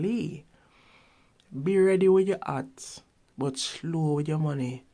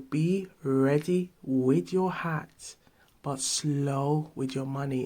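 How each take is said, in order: First: It is said in a Jamaican accent, dropping H. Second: It is said in a plain standard accent.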